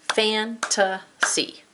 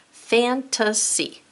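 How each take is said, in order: First: Fantasy drawn out very slowly, each syllable apart; syllable stretch. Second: Slow word reading. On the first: Teacher modelling syllables, Fantasy stretched slowly. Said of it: "say it, hear it". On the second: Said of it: "Write the word". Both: Shown as a demonstration.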